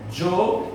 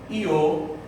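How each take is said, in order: First: The word starts with a dj sound. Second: The word starts with an ee-like glide. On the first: "com o som de T J" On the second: "com o som de I"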